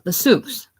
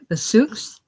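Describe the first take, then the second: First: "The souks" falling, as a statement; confirming fall. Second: "The souks" rising high as a question; questioning rise. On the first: Boy confirms the answer. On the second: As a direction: ask "The souks" with a raised, rising end. Questioner repeats the answer. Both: Acted.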